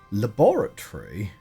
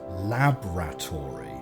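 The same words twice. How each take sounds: First: The vowel after 'lab' is clearly pronounced. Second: The vowel after 'lab' is left out. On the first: "the spelling of laboratory is definitely L A B O R" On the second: "which would be like L A B R A, and you sort of drop the O"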